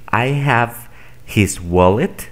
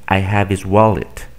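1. La h en 'his' se pronuncia claramente. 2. La h se omite y las palabras se unen. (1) "En lugar de decir" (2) "Unen estos sonidos y omiten este"

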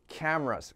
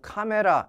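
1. 영어 소리로 발음해요, 끝에 s가 있어요. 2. 한국식 음절로 발음해요, 끝의 s는 없어요.

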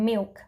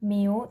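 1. คำนี้ออกเสียงแบบที่ถูกสอน 2. คำนี้ออกเสียงแบบที่ถูกปฏิเสธ (1) "แต่ออกเสียงว่า" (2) "อย่าอ่านออกเสียงว่า"

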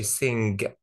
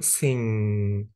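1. يُسمع صوت g القوي في النهاية. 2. تنتهي بـ ng دون صوت g قوي. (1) "ما بقولش sing" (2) "بقول sing"

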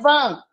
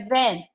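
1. Ela é dita com um som de vogal portuguesa. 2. Ela é dita com um som de vogal inglesa. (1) "não é van" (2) "é van"

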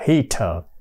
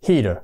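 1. Phụ âm giữa là âm t rõ ràng. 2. Phụ âm giữa là âm d nhẹ. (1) "Chỉ có những người Anh hay người Úc thì họ mới đọc là heater" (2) "Còn người Mỹ thì do chắc có lẽ do dễ dãi hơn, họ đọc thành ra là heater"

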